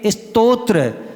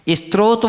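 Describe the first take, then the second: First: The 'to' sound comes first, then 'tra'. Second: The 'to' and 'tra' sounds are not in order. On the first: This is how it should be said. The speaker calls it right. "ता पहले है और त्रा क्या है, बाद में है" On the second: This is how most people say it. The speaker calls it wrong. "अधिकांश लोग बोलते हैं क्या"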